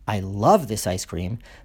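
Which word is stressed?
love. The stress falls on the word love. Other ice creams may be liked too. "there may be lots of other ice creams I like"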